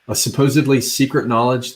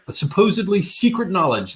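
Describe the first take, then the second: First: It is read in the speaker's plain accent. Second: It is read in a put-on Australian accent. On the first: The speaker calls it right. "let me read that again without the absolutely unacceptable um, Australian accent" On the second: The speaker calls it wrong. "I can't do Australian either, sorry"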